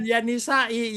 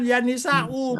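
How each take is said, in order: First: The word ends with an i vowel. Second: The word ends with a u vowel.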